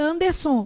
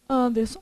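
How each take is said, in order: First: Anderson stressed as ander-SON. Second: Said in the usual way. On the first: Shown as a demonstration. Teacher shows an absurd stress, Anderson with stress on SON. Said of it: "Se a sílaba tônica fosse o som". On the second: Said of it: "Como é que você fala".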